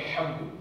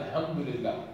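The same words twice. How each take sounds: First: "Alhamdu" with the proper Arabic h; correct h. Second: "Alhamdulillah" with the wrong kind of h; mispronounced h. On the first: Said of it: "instead of Alhamdu". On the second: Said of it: "will mispronounce it as". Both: Shown as a demonstration.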